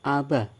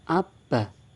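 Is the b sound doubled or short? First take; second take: short; doubled. First: The b sound is short and single. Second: The b sound is held long and doubled. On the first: "Jika tidak ada tasydid, dibaca aba" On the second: "Jika diberi tasydid, dibaca abba"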